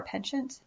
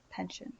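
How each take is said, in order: First: Penchant with a high, rising question tune. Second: Penchant very softly, with no question rise; muttered repeat. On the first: Checking a word choice mid-sentence, questioning "penchant". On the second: Testing the word to oneself, muttered "penchant". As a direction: repeat "penchant" under your breath. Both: Real, not acted. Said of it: "Is that the right word?".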